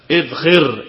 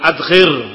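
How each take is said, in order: First: The word begins with an 'i' vowel. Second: The word begins with an 'a' vowel. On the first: The speaker calls it right. "tetapi dibaca idkhir" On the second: The speaker calls it wrong. "bukan adkhir"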